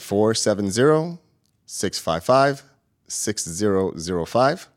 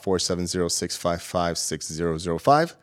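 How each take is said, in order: First: The number is said slowly. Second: The number is said at normal, faster speed.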